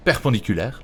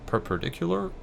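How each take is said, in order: First: "Perpendiculaire" said the French way, pair-pon-dee-koo-lair; French pronunciation. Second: "perpendicular" tried in English, high questioning rise; English try. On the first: Giving up on English, says "Perpendiculaire" in French. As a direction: give "Perpendiculaire" in French, with relief. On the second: Explaining the wall stretch, unsure "perpendicular" in English. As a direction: stumble over "perpendicular" in English, rising. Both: Shown as a demonstration. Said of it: "a word I can't say in English".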